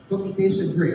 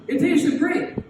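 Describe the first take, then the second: First: Said in the usual way. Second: Put-on kid voice. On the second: Boy answers teacher about cookie.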